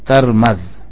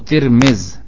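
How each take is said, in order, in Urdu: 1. t اور m دونوں پر a آتا ہے۔ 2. t اور m دونوں پر i آتا ہے۔ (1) "تا اور میم دونوں پر زبر پڑھیں گے فتح کے ساتھ" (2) "تا اور میم دونوں کے نیچے زیر پڑھیں"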